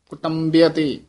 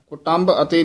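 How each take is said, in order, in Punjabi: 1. ਸ਼ਬਦ ਇੱਕ ਜੁੜੀ ਹੋਈ ਇਕਾਈ ਵਜੋਂ ਬੋਲਿਆ ਜਾਂਦਾ ਹੈ। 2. ਸ਼ਬਦ ਦੋ ਹਿੱਸਿਆਂ ਵਿੱਚ ਵੰਡਿਆ ਹੋਇਆ ਹੈ। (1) "ਇਸ ਦਾ ਉਚਾਰਨ ਕੁਟੰਬਿਅਤੇ ਕਰਨਾ ਹੈ" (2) "ਕੁਟੰਬ ਅਤੇ ਨਹੀਂ ਕਰਨਾ"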